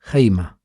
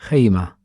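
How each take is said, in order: Both takes have the same delivery.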